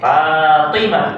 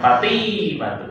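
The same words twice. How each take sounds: First: The vowel of the second syllable is short. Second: The vowel of the second syllable is long. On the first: The speaker calls it right. "T-nya pendek" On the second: The speaker calls it wrong.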